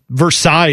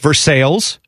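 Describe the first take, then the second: First: It is said with a French-style pronunciation. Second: It is said with an English-style local pronunciation. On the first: This is how the original name is pronounced. "Versailles is what that should be" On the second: This is how the local town is called. "We pronounce them our way, like Versailles"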